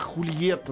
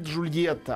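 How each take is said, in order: First: The name begins with a breathy H sound. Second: The name begins with a soft J sound. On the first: This is the original Spanish form of the name. The speaker calls it right. "она Хульетта, на самом деле. Правильно так-то называется" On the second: This is the familiar local form of the name. The speaker calls it wrong. "она не Джульетта"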